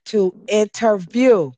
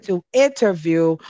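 First: Slow stressed "interview" with falling tune; drawn-out interview. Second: Said in the usual way. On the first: Shown as a demonstration. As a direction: stretch out "interview" and let it fall. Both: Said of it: "that's right".

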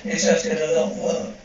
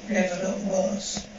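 First: Said in the usual way. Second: Softer and slower, trailing off; quiet slow echo. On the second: Acted. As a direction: let the repeat sink, slowly and softly. Echoing his own grim remark.

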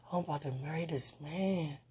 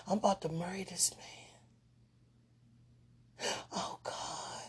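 First: Said in the usual way. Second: Hushed dreamy whisper. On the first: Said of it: "repeated line, voiced". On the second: Real, not acted. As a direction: gush it in a whisper. Whispered gushing.

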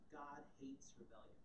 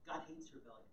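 First: God hates rebellion, weight on hates, quiet and falling; stress on HATES. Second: God hates rebellion, weight on God; stress on GOD. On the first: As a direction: press on hates softly. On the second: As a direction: lean on God, falling. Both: Shown as a demonstration. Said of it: "repeats key line for emphasis".

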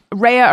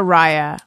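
First: "Raya" pronounced RAY-uh; first syllable like RAY. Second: "Raya" pronounced RYE-uh; first syllable like RYE. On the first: Spelling out the app, then trying "Raya" as RAY-uh. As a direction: make the start of "Raya" rhyme with day. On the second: Spelling out the app, then trying "Raya" as RYE-uh. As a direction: make the start of "Raya" rhyme with sky. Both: Shown as a demonstration. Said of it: "I don't know if it's Raya or Raya".

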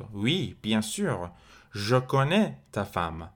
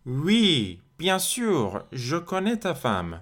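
First: Said in the usual way. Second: High, swooping, slow French answer; emphatic yes. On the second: Acted. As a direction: answer as if it were completely obvious, pitch leaping up. Answers the example question, acting it.

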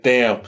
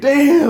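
First: Muttered wry damn; quiet resigned damn. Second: High, loud burst of amazement; high startled damn; amazed exclamation. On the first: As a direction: shrug it off to yourself. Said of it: "but I was laughing to myself". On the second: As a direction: shout it out like you can't believe the surge. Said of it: "and I'm all like". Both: Retold or imitated.

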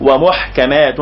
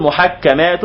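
First: ومحكمات as wa-muḥkamātun; waw added, single kaf. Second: محكمات drawn out as muḥak-kamātun; doubled kaf. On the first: Teacher summing up the reading with the waw, single kaf. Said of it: "فيبقى تضيف حرف". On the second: Teacher summing up the first reading, doubled kaf. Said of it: "حرفا آخر للوزن". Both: Shown as a demonstration.

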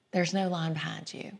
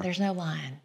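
First: Hushed, breathy ghost-story whisper; spooky whisper. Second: Soft spooky voice. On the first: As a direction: whisper it like a campfire tale. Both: Acted. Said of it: "maybe it was a little bit of that".

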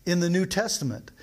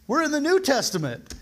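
First: Said in the usual way. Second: New pitched high and pressed hard in "We're in the New Testament"; emphatic point. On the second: Real, not acted. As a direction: lift "New" high and lean on it. Emphatic reminder to congregation.

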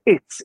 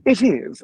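First: "it's" said high and quick as one clipped contraction; the casual contracted form "it's". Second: "It is" said high and crisp, both words fully separate; precise, never contracted "It is"; Astarion's careful "It is". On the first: Contrasting the contraction Astarion never uses, quick and light. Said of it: "as opposed to". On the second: Demonstrating the elf's formal speech pattern, crisp. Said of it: "always for Astarion". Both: Shown as a demonstration.

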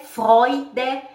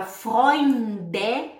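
First: Freude slow and loud as "FROY-de"; without N. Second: Freunde as "FROYNN-de", slow, n held; drawn-out N. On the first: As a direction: stress Freude, with no nasal before the d. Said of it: "você não fala o N". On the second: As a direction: pull out the n in Freunde before the d. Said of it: "tem que puxar o N". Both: Shown as a demonstration.

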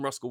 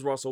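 First: Russell said as Ruskell, a hard k before the l; joking nickname Ruskell with a k. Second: Said in the usual way. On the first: Shown as a demonstration. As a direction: say Ruskell, rhyming with muscle plus k. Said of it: "his name is Russell". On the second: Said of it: "but I calls him Ruskell Wilson".

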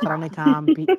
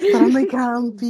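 First: Said in the usual way. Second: Laughing. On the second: Real, not acted. Repeats it laughing.

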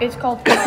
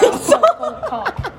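First: Said in the usual way. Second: High, slow, laughing voice; high mock voice. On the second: Shown as a demonstration. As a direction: stretch it out high and silly.

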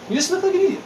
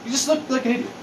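First: Higher, more scornful repeat. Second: Said in the usual way. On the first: Shown as a demonstration. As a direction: scoff it higher the second time.

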